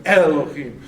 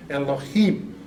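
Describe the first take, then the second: First: ELOHIM punched louder at the front, E-lo-him; louder, front-stressed version of ELOHIM; stress on earlier syllable. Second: ELOHIM with the emphasis on the closing HIM; natural-flow ELOHIM, stressed at the end; stress on final syllable. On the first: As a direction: move the emphasis off HIM to the start of ELOHIM. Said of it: "it should be on Elohim". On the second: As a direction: lean on the last syllable of ELOHIM. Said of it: "on the im at the end". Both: Shown as a demonstration.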